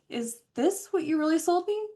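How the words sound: The question sounds soft and friendly. The asker is just checking, without hostility. The speaker calls it right. "add emojis just to help s- soften the tone"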